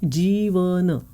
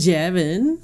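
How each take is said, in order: First: The first vowel is a long ee sound. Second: The first vowel is an e sound. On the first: The speaker calls it right. "माझं नाव काय आहे" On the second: The speaker calls it wrong. "यू कॅनॉट से"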